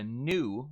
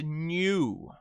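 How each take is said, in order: First: Said in the usual way. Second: NEW as drawn-out British 'nyoo'; fluid J. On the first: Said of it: "the American Standard". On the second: Shown as a demonstration. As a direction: add a Y glide to NEW. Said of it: "use the fluid J".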